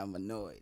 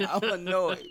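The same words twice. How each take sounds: First: Said in the usual way. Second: Laughing, louder, drawn out I'm annoyed; higher, slower, laughing I'm annoyed. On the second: Real, not acted. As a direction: laugh through the complaint.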